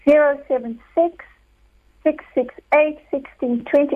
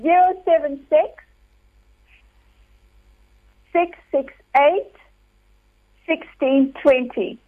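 First: The number is said at a fast pace. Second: The number is said at a slower pace.

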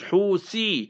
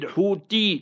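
First: The middle consonant is a th sound. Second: The middle consonant is a plain t sound. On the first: The speaker calls it right. "It's Houthi. With a Tha" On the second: The speaker calls it wrong. "Not with a Ta. People pronounce it Houthi. That's wrong"

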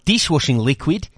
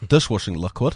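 First: It is said with an Australian accent. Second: It is said with a New Zealand accent.

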